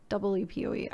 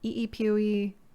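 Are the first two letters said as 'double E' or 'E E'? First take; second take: double E; E E. First: The first two letters are said as 'double E'. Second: The first two letters are said separately.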